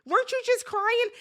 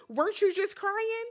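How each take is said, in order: First: Mock disbelief, pushed harder. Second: Mock disbelief. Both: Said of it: "the way I'd have been like".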